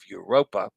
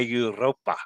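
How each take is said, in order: First: The R is said plainly, not rolled. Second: The R is rolled with a trill. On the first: "I would go with the English pronunciation of Europa" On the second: "Roll the R"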